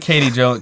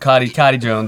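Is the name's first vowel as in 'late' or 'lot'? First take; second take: late; lot. First: The first vowel sounds like the one in late. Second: The first vowel sounds like the one in lot. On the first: The speaker calls it wrong. "unwrap the Katie" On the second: The speaker calls it right. "put in a Cottie instead"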